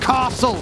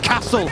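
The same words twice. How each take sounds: First: It is said in a Cambridge-area accent. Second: It is said in the speaker's own accent. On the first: This is how his partner says it. The speaker calls it wrong. "not castle" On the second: This is how the speaker says it. The speaker calls it right. "and it's castle"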